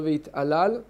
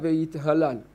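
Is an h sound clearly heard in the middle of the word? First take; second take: no; yes. First: The middle h sound is dropped. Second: The middle h sound is clearly pronounced. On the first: The speaker calls it wrong. "שלא ויתעלל" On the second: The speaker calls it right. "צריך לחתוך את ההי"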